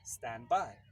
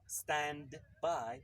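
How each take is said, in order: First: The words are joined and the d disappears. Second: The words are said separately with the d. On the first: The speaker calls it right. "it's stand by" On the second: The speaker calls it wrong. "It's not stand by"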